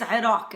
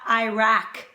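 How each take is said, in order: First: It is pronounced closer to the native Arabic form. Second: It is pronounced in an Americanized way. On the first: The speaker calls it right. "it is Iraq" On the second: The speaker calls it wrong. "It's not Iraq, Mister George Bush"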